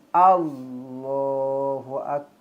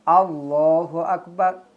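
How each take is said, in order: First: The final sound of Akbar is not heard. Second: The final sound of Akbar is clearly heard. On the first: The speaker calls it wrong. "Tak bunyi" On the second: The speaker calls it right. "Kena bunyi belakang"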